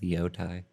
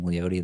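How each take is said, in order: First: The name ends with a 'tie' sound. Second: The name ends with a 'tay' sound. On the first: This is how someone else pronounces it. "pronounces it Leotai" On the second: This is the preferred, more casual pronunciation. "it's more comfortable just saying Leote"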